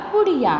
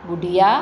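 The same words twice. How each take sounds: First: बुढ़िया with the final या nasalised as याँ; nasal plural ending. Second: Said in the usual way. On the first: Shown as a demonstration. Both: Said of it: "चंद्र बिंदु लगा के या कर दिया".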